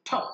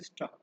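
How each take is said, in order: First: ঠপ with a strongly aspirated first T. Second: স্টপ with no puff of air after the T; unaspirated T. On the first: Teacher demonstrates the first T, aspirated ঠপ. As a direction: release the T of ঠপ with a puff. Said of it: "প্রথমটা উচ্চারণ হচ্ছে". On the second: Teacher demonstrates the second T, unaspirated in স্টপ. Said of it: "পরেরটা উচ্চারণ হচ্ছে". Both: Shown as a demonstration.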